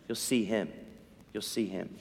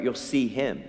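First: Fading echo. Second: Said in the usual way. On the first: Shown as a demonstration.

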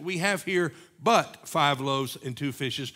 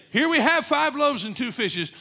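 First: Slow reading with the weight on "but"; stress on but. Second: "Here we have" pushed much higher and louder on "we"; stress on we. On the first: Preacher showing the church the right stress, on "but". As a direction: lean on "but" in "We have here but five loaves", drawn out. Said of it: "the emphasis in that statement". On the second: Preacher showing the wrong reading, loud stress on "we". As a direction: hit "we" hard as the reading that misses the point. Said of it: "was not really to say". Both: Shown as a demonstration.

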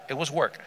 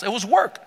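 First: Softer, falling repeat, "work" dropped low; quiet echo. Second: "work" pushed up high with a rising end; stress on WORK. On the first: Preacher letting the hardship sink in, hushed repeat. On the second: Preacher describing the hard trek for water, emphatic "work". Emphatic statement, then quieter echo. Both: Real, not acted.

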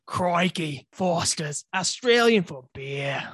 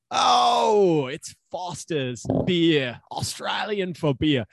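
First: Attempted Australian accent, slow on the slogan. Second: Loud high "oh", then slow Australian ad slogan; mock Australian accent. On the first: Shown as a demonstration. Friend obliges co-host's request for a demo, Australian accent. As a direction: give your best Australian, drawing out the slogan. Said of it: "give us your best Australian accent". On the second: Co-host greets the can of Foster's, hammed-up Australian accent. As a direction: stretch it out like an Australian beer advert.

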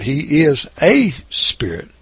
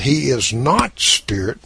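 First: "a" said as a full "ay", stressed. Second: "not" stressed against a bare "spirit"; emphasize "not" to set up a correction. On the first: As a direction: punch the article "a" as a long "ay". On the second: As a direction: lean on "not", with no article before "spirit". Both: Shown as a demonstration. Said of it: "if you'll notice".

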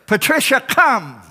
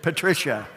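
First: High hollered call by name; raised, carrying shepherd's call; shepherd calling sheep. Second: Said in the usual way. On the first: Acted. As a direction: call a straying sheep in from afar. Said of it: "the shepherd comes to the sheepfold and says".

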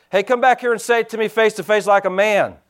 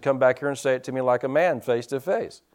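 First: Mock holler, a bit raised and stronger; calls the challenge back after the car. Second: Quiet, low-key retelling of a holler; retold holler. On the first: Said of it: "And I hollered back". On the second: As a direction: tells the shout rather than shouting it. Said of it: "I hollered at the guys and said".

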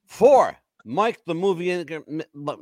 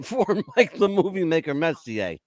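First: Words slurred by slipping dentures; stumbling over loose false teeth. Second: Said in the usual way. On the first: Real, not acted. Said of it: "My dentures are slipping". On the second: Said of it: "let me do this again".

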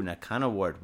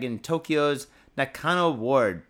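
First: Said in the usual way. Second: "Nakano" read slow and louder in announcer style; news read. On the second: Acted. Reading the article's location aloud to viewers, slow announcer voice. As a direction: give "in Tokyo's Nakano Ward" a slow, loud news-read delivery.

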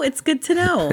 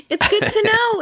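First: Said in the usual way. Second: Laughing through the words; giggling it out high. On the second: Real, not acted. Laughing while repeating.

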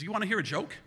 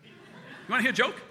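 First: Higher-pitched, teasing doctor voice; doctor's offer. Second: High, loud repeated offer; insistent doctor. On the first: Bored Doc offers a joke while stitching, teasing. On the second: Bored Doc presses patient about a joke, insistent. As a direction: press the question, louder and higher. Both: Retold or imitated.

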